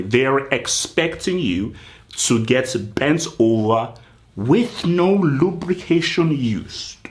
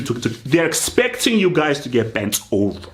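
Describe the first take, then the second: First: Slow, every word drawn out; said slowly. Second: Said in the usual way. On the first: Shown as a demonstration. Mock manager to his team, slow and deliberate. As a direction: spell it out slowly so the crowd hears. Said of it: "I'm gonna say it slowly so people can hear me". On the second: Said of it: "I'm gonna say it slowly".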